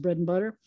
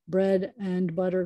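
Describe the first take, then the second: First: The word 'and' is reduced to 'n'. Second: The word 'and' is said in full.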